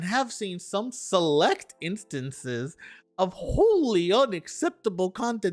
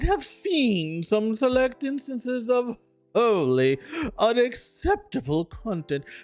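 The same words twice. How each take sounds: First: It is read in a plain, ordinary voice. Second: It is read in a haughty, pompous voice.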